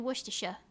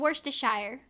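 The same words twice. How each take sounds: First: The ending is reduced to a short 'sher'. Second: The ending is said fully as 'shire'. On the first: The speaker calls it right. "It's supposed to be Worcestershire" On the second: The speaker calls it wrong. "I was pronouncing the Shire"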